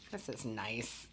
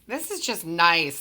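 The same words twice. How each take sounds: First: Said much softer, almost to herself; quiet aside to herself; soft murmur. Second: Louder and slower, savouring it; louder, slower repeat. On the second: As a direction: lean in and savour the words. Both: Real, not acted.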